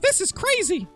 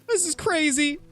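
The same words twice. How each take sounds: First: It is said in a Mickey Mouse voice. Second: It is said in a Morty voice.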